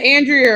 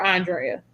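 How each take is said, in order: First: "Andrea" said AN-dree-uh; first-syllable stress. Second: "Andrea" said on-DRAY-uh; "Andrea" as ahn-DRAY-uh; alternative pronunciation. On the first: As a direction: say "Andrea" with a short flat A and "dree" in the middle. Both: Shown as a demonstration. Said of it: "Is it Andrea or Andrea?".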